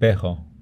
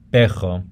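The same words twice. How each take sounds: First: The R is a soft, light throat sound. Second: The R is a strong breathy throat sound. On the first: "Some people pronounce this lighter" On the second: "is an aspirated sound, so it's coming from the throat"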